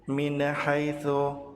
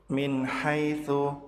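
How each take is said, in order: Both takes have the same delivery.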